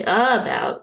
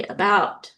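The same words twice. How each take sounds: First: First syllable of "about" stressed as a full UH, higher and louder; wrongly stressed "about", punched on the A. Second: Said in the usual way. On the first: Shown as a demonstration. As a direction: say "about" as UH-bout, leaning hard on the opening vowel. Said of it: "We don't say". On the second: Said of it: "we say".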